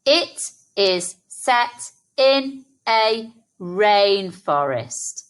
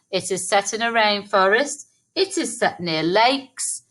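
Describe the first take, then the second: First: Slow, every word of "It is set in a rainforest" given space; slow read-back. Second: "It is set in a rainforest" rattled off quickly; just run through it fast; quick recap. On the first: Teacher reading the sentence back slowly with children. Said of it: "Let's read our sentence back". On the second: Teacher quickly recapping the sentence before adding more. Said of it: "We could also write another sentence". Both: Shown as a demonstration.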